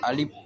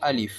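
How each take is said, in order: First: The middle vowel is short, ending in p. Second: The middle vowel is short, ending in f. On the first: The speaker calls it wrong. "அல்லது அலிப் என்று மொழிவாங்க. அது தவறானது" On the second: The speaker calls it right. "சரியான உச்சரிப்பு அலிஃப்"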